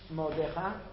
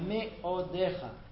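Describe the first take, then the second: First: The first short vowel is dropped. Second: The first short vowel is clearly sounded. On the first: The speaker calls it wrong. "It's not modecha" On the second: The speaker calls it right. "it's me'odecha"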